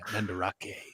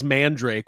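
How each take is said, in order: First: The name is said with four syllables. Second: The name is said with two syllables. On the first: The speaker calls it right. "I love saying it" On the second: The speaker calls it wrong. "I always read it as Mandrake"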